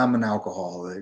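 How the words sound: It sounds hesitant and reluctant, trailing up. The person does not yet accept it. The speaker calls it wrong. "they're not ready to accept that"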